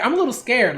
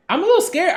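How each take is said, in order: First: Said in the usual way. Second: Higher, louder mock-scared squeak on "little". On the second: Real, not acted. Reacting to Alita's face, higher, louder mock fright.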